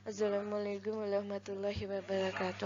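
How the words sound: The words are mumbled with unclear articulation. The speaker calls it wrong.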